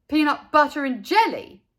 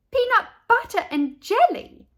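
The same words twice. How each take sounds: First: Loud incredulous question; can't believe his ears; in disbelief. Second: Very high, loud shocked question; astonished. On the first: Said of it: "asked Buster in disbelief". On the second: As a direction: echo it in shock. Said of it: "Leslie and Natey asked together". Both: A narrator's reading.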